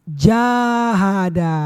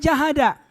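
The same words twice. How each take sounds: First: The first vowel is held long. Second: The first vowel is kept short. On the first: It refers to waging jihad. The speaker calls it right. "Kalau panjang ja, baru yang bermakna jihad" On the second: It means striving earnestly. The speaker calls it wrong. "Nggak boleh dibaca jahada"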